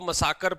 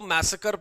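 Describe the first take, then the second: First: It is said as 'muh-saa-ker'. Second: It is said as 'mass-uh-ker'. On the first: The speaker calls it wrong. "कई लोग इसको मसाकर पढ़ते हैं" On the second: The speaker calls it right. "मैं इसको मैसेकर पढ़ता हूँ"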